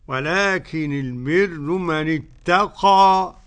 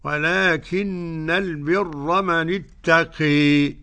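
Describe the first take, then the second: First: The final vowel is a fully open a. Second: The final vowel leans strongly toward e. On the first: "ورش له الفتح والتقليل" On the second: "حمزة والكسائي وخلف العاشر بالإمالة"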